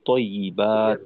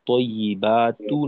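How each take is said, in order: First: The word ends on a bare t consonant. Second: The word ends with a final u vowel. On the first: The speaker calls it right. "ওয়াকফ করে পড়লেই ভালো, অর্থাৎ জজম করে পড়বো" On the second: The speaker calls it wrong. "না বলে"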